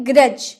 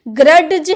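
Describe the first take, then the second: First: ग्रज said 'gruj', no separate D; silent D in grudge. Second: ग्रज with a separate hard D before the J, 'grud-j'; ग्रज split as grad-j; wrong sounded D. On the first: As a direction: correct model of ग्रज, lower. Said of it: "हम क्या बोल रहे?". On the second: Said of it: "हम नहीं बोल रहे". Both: Shown as a demonstration.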